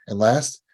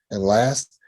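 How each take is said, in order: Both takes have the same delivery.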